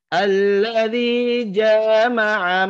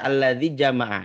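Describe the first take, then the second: First: The first vowel of jama'a is drawn out long. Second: The first vowel of jama'a is kept short. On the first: The speaker calls it wrong. "Itu dijanya dibaca panjang" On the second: The speaker calls it right. "dibaca pendek"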